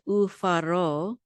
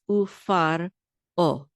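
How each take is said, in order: First: The r runs straight into the final o. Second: A glottal stop separates the final o. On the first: The speaker calls it wrong. "don't say ufaro. Don't don't make resh part of this syllable" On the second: The speaker calls it right. "It's ufar o"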